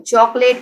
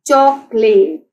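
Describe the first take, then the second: First: Said in the usual way. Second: chocolate slowly split as choc-late; teacher's slow choc, late for chocolate; syllable by syllable. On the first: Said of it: "three syllables हैं". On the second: Shown as a demonstration. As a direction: sound out chocolate in separate drawn beats. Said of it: "chocolate के three syllables हैं".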